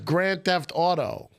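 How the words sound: The stress falls on the word auto. The speaker calls it right. "you're putting the emphasis on the auto"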